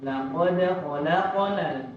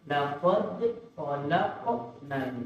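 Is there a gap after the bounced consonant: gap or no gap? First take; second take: no gap; gap. First: The bounced consonant joins the next sound smoothly. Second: A gap follows the bounced consonant before the next. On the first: The speaker calls it right. "jangan dipisah" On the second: The speaker calls it wrong. "Tidak dibaca ... tidak dipisah"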